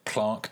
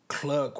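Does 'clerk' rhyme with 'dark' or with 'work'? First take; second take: dark; work. First: The vowel sounds like the one in 'dark'. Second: The vowel sounds like the one in 'work'. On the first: "or is it a dark time for us all?" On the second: "Does it work well"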